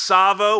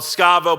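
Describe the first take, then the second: First: The name begins with a plain s sound. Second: The name begins with an sk sound. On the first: The speaker calls it right. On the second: The speaker calls it wrong.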